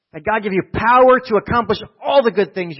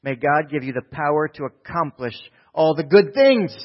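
First: Prayer preached high and loud; full-voiced pulpit repetition; loud preaching. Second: Said in the usual way. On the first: Real, not acted. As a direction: lift the blessing up with force. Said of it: "repeats the prayer louder". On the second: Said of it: "Thessalonica says this".

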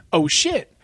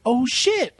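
First: A small retold "Oh, shit."; mild mock surprise. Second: "Oh, shit." pitched up high in disbelief; higher mock surprise. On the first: Retelling spotting the sequel on the list, mildly surprised. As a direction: say "Oh, shit." lightly, half-surprised. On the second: Seeing the sequel is recent, higher mock disbelief. Retelling seeing the year 2014.

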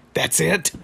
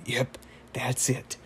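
First: Higher-pitched, rising disbelieving question; mock incredulous. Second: Slow, softer put-on matter-of-fact voice; wizard. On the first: Rigby questions the wizard's petty revenge, mock incredulous. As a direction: act out baffled disbelief, pitch jumping up. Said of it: "And then Rigby's like". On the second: Wizard confirms his petty revenge to Rigby, slow and unbothered. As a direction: confirm it slowly and quietly, unbothered. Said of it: "And then he's like".

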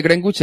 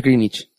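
First: "Greenwich" said "grengwich", w sounded; spelling pronunciation. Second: "Greenwich" said "grinich", no w; English pronunciation. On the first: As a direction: say "Greenwich" the Spanish way, as written. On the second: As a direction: say "Greenwich" with a silent w, "GRIN-ich". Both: Shown as a demonstration. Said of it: "El meridiano de Greenwich es Greenwich".

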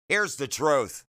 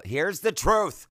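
First: Said in the usual way. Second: A raised, eager Here's the truth; higher excited Here's the truth. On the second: Real, not acted. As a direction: hype up the confession. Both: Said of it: "okay, here we go".

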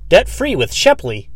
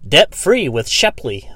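First: Slow, higher, punchy slogan; mock billboard pitchman; hammed-up ad voice. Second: Slow, drawn-out ad line; lightly mocking a billboard slogan; billboard slogan read. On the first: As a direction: sell it like a cheesy jingle. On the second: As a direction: read it like a cheesy ad. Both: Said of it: "It was like".

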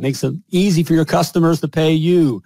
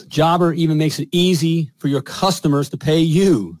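First: "easy" lifted and leaned on; stress on easy. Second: Said in the usual way. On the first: Shown as a demonstration. Host repeating the ad line to plumbers, stressing "easy". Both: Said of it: "Let me repeat that".

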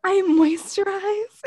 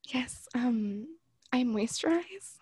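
First: High, loud, drawn-out questioning; mock your own lame excuse, loudly; slow squeal of disbelief, rising at the end; incredulous self-mockery. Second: Slow, hushed, awkward excuse; tiny whispered fib, trailing upward; sheepish whisper. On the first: Mocks own excuse after whispering it. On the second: Retold or imitated. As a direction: whisper it haltingly, imitating embarrassment. Acts out awkward excuse to clerk.

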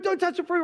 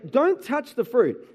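First: "Don't touch the fruit" repeated in an exasperated, much higher scold; worked up. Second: Said in the usual way. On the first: Retold or imitated. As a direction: hammer the order home, fed up. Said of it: "you're getting all worked up about it". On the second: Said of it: "I say".

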